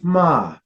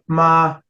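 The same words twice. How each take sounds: First: The pitch starts high and falls. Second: The pitch stays high and level. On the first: "you have your high falling tone" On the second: "your high neutral tone"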